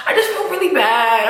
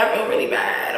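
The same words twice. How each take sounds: First: Choked-up admission of feeling bad; real sadness coming through; emotional. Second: Soft, breathy whisper of regret; real sadness, barely voiced. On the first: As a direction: let the emotion catch in the voice. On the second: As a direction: drop to a whisper as it sinks in. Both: Real, not acted. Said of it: "I am getting emotional".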